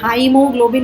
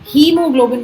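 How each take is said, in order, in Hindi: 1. पहला अक्षर 'high' की तरह बोला जाता है। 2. पहला अक्षर 'hee' की तरह बोला जाता है। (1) "हाइमोग्लोबिन नहीं बोलते" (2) "इसमें हीमोग्लोबिन बोलते हैं"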